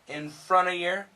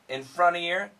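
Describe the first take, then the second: First: The V sound is left out entirely. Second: The V sound is left out entirely.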